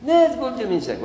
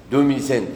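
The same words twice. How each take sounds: First: High-pitched objection to "دو ميل سانك"; mock protest. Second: Said in the usual way. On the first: Teacher rejects the French number, high protesting voice. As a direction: scold with the pitch leaping up. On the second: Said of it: "شحال جات؟".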